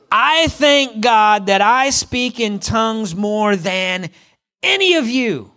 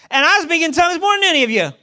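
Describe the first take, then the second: First: I thank God, each word slow and weighty; slow emphatic reading. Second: And I speak in tongues, higher and fast, bragging; boastful mic drop. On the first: Shown as a demonstration. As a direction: read it out slowly, leaning on the words. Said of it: "this is what he says". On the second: Retold or imitated. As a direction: toss it off as a cocky brag. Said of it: "And then he's like".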